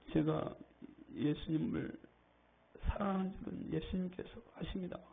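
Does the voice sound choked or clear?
choked. It is said in a choked, ashamed voice.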